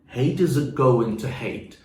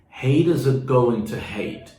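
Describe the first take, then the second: The two takes are said the same way.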